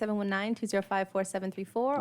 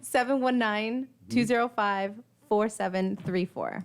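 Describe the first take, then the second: First: The number is said fast. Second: The number is said slowly.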